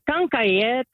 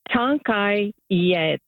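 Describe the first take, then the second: First: The phrase is said fast, run together. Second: The phrase is said slowly, word by word.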